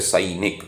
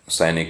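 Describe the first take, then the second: First: The first vowel is a gliding diphthong. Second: The first vowel is a plain single vowel. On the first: This is the Sanskrit pronunciation. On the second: This is the everyday pronunciation.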